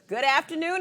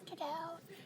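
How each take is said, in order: First: It is said loudly and energetically. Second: It is said softly and weakly.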